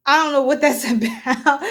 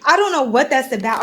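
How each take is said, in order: First: Chuckling mid-sentence; laughing through it. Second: Said in the usual way. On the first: Real, not acted. Tarot reader laughing at her own question. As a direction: let a laugh break the line.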